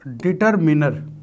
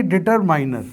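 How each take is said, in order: First: डिटरमिनर with a short i in मिनर, said slowly; careful demo of डिटरमिनर, ending '-minner'; correct pronunciation. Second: डिटरमाइनर with a long 'eye' vowel in माइ; wrong pronunciation. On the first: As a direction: slowly model डिटरमिनर, third syllable rhyming with 'min' as in minute. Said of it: "इसका सही pronunciation होता है". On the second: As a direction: say डिटरमाइनर with the third syllable like 'mine'. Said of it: "ना कि डिटरमाइनर". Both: Shown as a demonstration.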